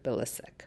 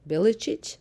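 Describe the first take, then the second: First: The surname is said the common Canadian way. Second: The surname is said the original family way. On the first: This is how people in Canada usually say it. "in Canada, everybody pronounces it" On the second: This is how the family name should be said. "the proper way of saying my last name is"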